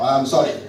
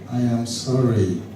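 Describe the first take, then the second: First: The apology sounds dismissive and insincere. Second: The apology sounds humble and sincere. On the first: The person is not really sorry. The speaker calls it wrong. "Don't say eh, I'm sorry now" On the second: The person truly regrets the wrong. The speaker calls it right. "say it with humility"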